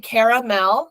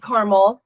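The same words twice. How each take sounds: First: It is said with three syllables. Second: It is said with two syllables.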